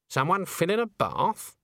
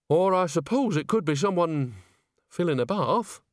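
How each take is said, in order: First: Higher, drawn-out guess with BATH lifted as a question. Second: Higher-pitched grudging allowance; conceding. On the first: Witch guesses at splashing behind the wall, questioning. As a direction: wonder aloud, rising on "bath". Granny wonders at the watery sound. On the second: Witch grants her friend's guess about the splashing, conceding. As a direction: allow that it might be so, lingering on "bath". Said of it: "Nanny conceded". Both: A narrator's reading.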